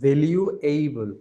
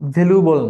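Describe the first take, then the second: First: The word ends with an 'able' sound. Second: The word ends with a short 'bol' sound. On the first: The speaker calls it right. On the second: The speaker calls it wrong.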